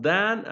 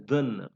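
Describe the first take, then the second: First: THAN with a full, open "a" vowel; strong form. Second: THAN reduced to "thuhn"; weak form. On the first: Teacher contrasting the forms of than, strong form. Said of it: "it has both form". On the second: Teacher contrasting the forms of than, weak form. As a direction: say THAN with a short neutral vowel. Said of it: "in connected speech we use weak form". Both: Shown as a demonstration.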